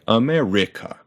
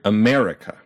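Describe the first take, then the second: First: A syllable other than the second is loudest. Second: The second syllable is the loudest. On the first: The speaker calls it wrong. "very weird if we did that to another syllable" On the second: The speaker calls it right. "we punch that mare"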